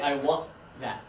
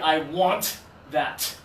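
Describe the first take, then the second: First: The final t is not released. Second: The final t is released strongly. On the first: The speaker calls it right. "We just say, I want that" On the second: The speaker calls it wrong. "we don't say I want that. Right, we would need a napkin for that"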